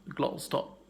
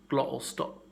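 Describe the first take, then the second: The two takes are said the same way.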